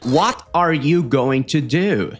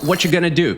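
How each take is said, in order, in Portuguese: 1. Cada palavra é dita completa e separadamente. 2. As palavras são reduzidas e ditas juntas. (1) "palavras perfeitamente mastigadas" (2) "o inglês da vida real"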